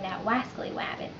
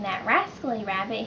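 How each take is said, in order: First: The R sounds are replaced with W sounds. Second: The words are said with clear R sounds. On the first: "he would place them with um, W's" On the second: "Instead of saying his R's"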